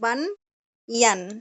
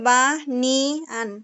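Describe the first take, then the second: First: The word is split into two syllables. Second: The word is split into three separate syllables. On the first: The speaker calls it right. "আর আমি যেটা বলতেছি বান ইয়ান" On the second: The speaker calls it wrong. "যদি আপনারটা হচ্ছে বা নি আন"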